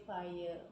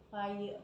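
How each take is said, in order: Both takes have the same delivery.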